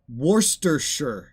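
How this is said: It is said in a British way. The speaker calls it right.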